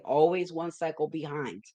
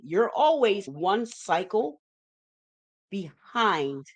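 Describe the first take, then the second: First: Said in the usual way. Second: "always one cycle behind" drawn out slowly, "always" rising; teacher slowing down on the key phrase; slow emphatic stress. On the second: Shown as a demonstration. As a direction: lean on "always" and stretch the phrase to drive the point home.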